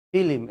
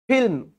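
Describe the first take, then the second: First: ফিল্ম said village-style as fi-lim; rustic fi-lim for ফিল্ম; rustic pronunciation. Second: Said in the usual way. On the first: Shown as a demonstration. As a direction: break ফিল্ম into two syllables with an added i. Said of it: "একটু গ্রাম্য". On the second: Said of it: "অনেকে এটাকে কি বলে?".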